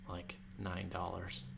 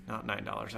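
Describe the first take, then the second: First: Mock lowball price. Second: Said in the usual way. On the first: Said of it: "Just kidding".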